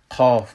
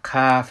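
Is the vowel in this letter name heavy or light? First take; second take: heavy; light. First: The vowel is said heavy and full. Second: The vowel is said light and thin. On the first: The speaker calls it right. "قاف بلند میشیم" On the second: The speaker calls it wrong. "ما قاف نمیگیم"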